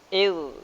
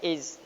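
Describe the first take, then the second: First: It ends in a soft th sound, tongue on teeth. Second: It ends in a hissing z sound. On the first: The speaker calls it right. "Ujung lidah ini dicentelkan ke gigi depan tersebut" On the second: The speaker calls it wrong. "Tidak boleh iz. Tidak ada keluaran desiran hams"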